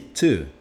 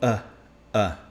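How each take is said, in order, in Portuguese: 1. A palavra é dita completa, com o T e a vogal. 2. A palavra é reduzida a um som de vogal fraca. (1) "E esse to" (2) "ele vai virar um a"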